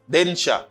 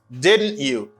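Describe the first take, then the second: First: The word 'you' is reduced to a short 'ya'. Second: The word 'you' is pronounced fully and separately. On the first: It is the informal way to say it. "informally, you say didn't ya" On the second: It is the formal way to say it.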